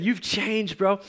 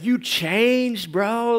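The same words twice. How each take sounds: First: Said in the usual way. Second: Imitating friend. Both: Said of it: "that's what he said".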